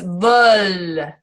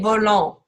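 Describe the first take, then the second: First: The final ending is left silent. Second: The final ending is sounded out. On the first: The speaker calls it right. "this E N T is silent" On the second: The speaker calls it wrong. "we don't say volant"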